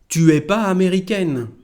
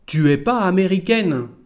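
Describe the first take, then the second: Both takes have the same delivery.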